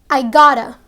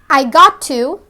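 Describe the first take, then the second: First: The words are contracted into a shorter form. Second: Each word is said fully and separately.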